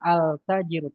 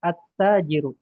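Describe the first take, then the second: First: A clear 'l' is heard before the 't'. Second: The 'l' merges into a doubled 't'. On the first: The speaker calls it wrong. "Tidak boleh al tajiru" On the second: The speaker calls it right. "tapi at tajiru"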